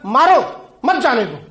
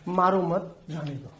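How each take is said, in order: First: There is a pause right after 'maaro'. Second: There is a pause right after 'mat'.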